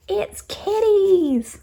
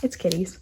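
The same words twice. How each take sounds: First: Very high, slow squeal of It's kitties; cute-thing voice. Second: Said in the usual way. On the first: Real, not acted. Gushing to viewers over kitty pins, high squeal. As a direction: coo it like seeing a kitten. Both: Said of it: "this voice just comes out".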